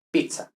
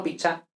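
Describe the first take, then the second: First: Pizza said as pitsa, with t-s; Italian zz. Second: Pizza said as picha, with Spanish ch; mistaken ch. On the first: Teacher corrects learners, right pizza with ts. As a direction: give pizza a crisp Italian "ts". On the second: Teacher corrects learners, wrong pizza with ch. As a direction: swap the zz in pizza for "ch". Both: Shown as a demonstration. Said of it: "no pizza".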